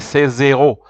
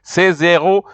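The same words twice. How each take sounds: First: The s links to make a z before the second word. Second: The s links to make a z before the second word.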